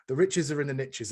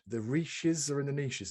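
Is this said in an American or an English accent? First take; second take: American; English. First: It is said in an American accent. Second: It is said in an English accent. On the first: The speaker calls it right. "as the Americans say" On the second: The speaker calls it wrong. "It doesn't work when you say it in English accent"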